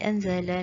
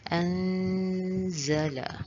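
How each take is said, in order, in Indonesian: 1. Bunyi sengaunya pendek, tidak ditahan. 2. Bunyi sengaunya ditahan selama dua harakat. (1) "kita tak boleh baca" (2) "kita kena baca anzala"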